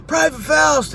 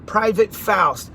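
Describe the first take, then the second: First: Calling out. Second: Drawn out slowly as he writes it; slow spelling out. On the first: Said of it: "he's like". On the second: Slow, deliberate. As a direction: sergeant writing a name down, slowly. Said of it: "he writes". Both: Retold or imitated.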